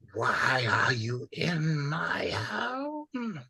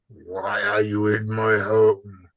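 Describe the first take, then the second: First: The line is said more quietly. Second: The line is said more loudly.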